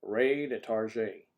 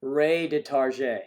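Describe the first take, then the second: First: Ray de Target slow in a put-on voice, Target as tar-ZHAY; hammed-up French brand name. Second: Ray de Target said loud and slow, Target as tar-ZHAY; mock French brand name. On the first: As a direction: slowly ham up Ray de Target in a mock French voice. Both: Shown as a demonstration.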